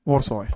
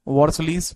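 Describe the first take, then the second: First: The name ends with an 'oy' sound. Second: The name ends with an 'eez' sound. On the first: "वॉर्सॉय भी इसको बोला जाता है" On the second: "वॉर्सलीज बोलते हैं इसको"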